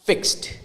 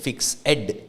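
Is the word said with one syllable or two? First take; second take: one; two. First: The 'e' is silent, making one syllable. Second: The ending is a separate 'ed' syllable. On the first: The speaker calls it right. "we swallow that or we make it something like a silent letter" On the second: The speaker calls it wrong. "നമ്മൾ അങ്ങനെ ആയിരിക്കും naturally വരുന്നത്"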